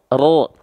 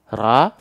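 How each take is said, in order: First: The vowel is darkened, thick, toward 'o'. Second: The vowel is a clear, thin 'a' sound. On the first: "angkat pangkal lidahnya. Ra, ra menjadi ro" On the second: "vokalnya masih a"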